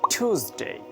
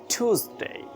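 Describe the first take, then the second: Both takes have the same delivery.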